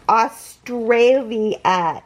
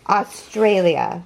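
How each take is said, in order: First: AUSTRALIA slowly, syllable by syllable; Australia sounded out at half speed; drawn-out word. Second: Said in the usual way. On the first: Real, not acted. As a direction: stretch out every part of Australia. Sounds out where parcel came from.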